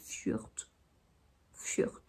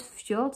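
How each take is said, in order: First: "fjord" softly, with a rounded eu vowel; quiet, careful "fjord" with eu for o and a t ending; Icelandic pronunciation. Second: "fjord" with an open French o; plain French "fjord", rhyming with nord; French pronunciation. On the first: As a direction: say "fjord" as a hushed fyeurt. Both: Shown as a demonstration. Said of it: "ça se dit".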